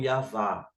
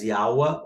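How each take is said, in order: First: The middle consonant is a v sound. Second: The middle consonant is a w sound. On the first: "tanto de U como de V" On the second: "tanto de U como de V"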